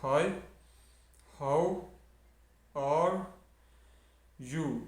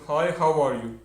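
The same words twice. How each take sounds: First: It is said slowly, one word at a time. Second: It is said quickly, as one smooth phrase.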